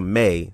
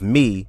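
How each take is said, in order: First: The word ends with an 'ay' vowel. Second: The word ends with an 'ee' vowel. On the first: The speaker calls it wrong. "to May, so it'll rhyme with say" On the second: The speaker calls it right. "the enunciation of May, of me"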